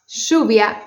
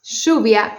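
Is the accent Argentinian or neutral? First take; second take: Argentinian; Argentinian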